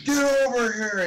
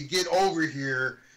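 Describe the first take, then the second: First: It is said intensely, almost yelled. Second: It is said calmly, without much intensity.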